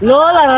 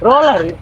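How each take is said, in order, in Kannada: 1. ಈ ಪದ L ಶಬ್ದದಿಂದ ಶುರುವಾಗುತ್ತದೆ. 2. ಈ ಪದ R ಶಬ್ದದಿಂದ ಶುರುವಾಗುತ್ತದೆ. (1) "ಲೋಲರ್ ಅಲ್ಲವಾ"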